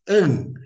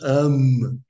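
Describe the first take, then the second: First: It ends in a nasal vowel, no consonant. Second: It ends with a full m consonant. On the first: The speaker calls it right. "nós falamos an" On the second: The speaker calls it wrong. "não falamos am"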